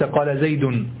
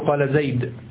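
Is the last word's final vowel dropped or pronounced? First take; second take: Pronounced; Dropped. First: The final word ends with a short vowel. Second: The final word ends without a vowel. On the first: The speaker calls it wrong. "ليس قال زيد" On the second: The speaker calls it right. "تقول قال زيد"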